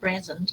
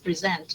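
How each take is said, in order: First: The stress is on the first syllable. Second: The stress is on the second syllable. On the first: The speaker calls it wrong. "not present" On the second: The speaker calls it right. "the verb is present"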